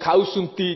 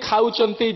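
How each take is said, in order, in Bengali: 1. এটি স্থানীয় জটনী উপভাষার ধাঁচে বলা হচ্ছে। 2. বক্তা এটি তাঁর সাধারণ প্রমিত ধাঁচে বলছেন। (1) "ଜଟଣୀ ଲୋକ ଥିଲେ ଖାଉସୁନ୍ତି" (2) "ଆମେ ଯେମିତି ଖାଉଛନ୍ତି"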